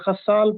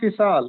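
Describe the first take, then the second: First: The first vowel is not an 'i' sound. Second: The first vowel is an 'i' sound. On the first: The speaker calls it wrong. "अक्सर लोग इसको खसाल पढ़ते हैं या खसाल पढ़ते हैं, वो भी गलत है।" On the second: The speaker calls it right. "खे के नीचे जेर है।"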